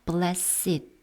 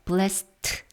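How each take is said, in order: First: It is two syllables, ending in an id sound. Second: It is one syllable, ending in a t sound. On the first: The speaker calls it right. "blessed 이렇게 네 어, 발음으로 한다면 id 발음입니다" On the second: The speaker calls it wrong. "blessed 하고 읽는 것이 아니라"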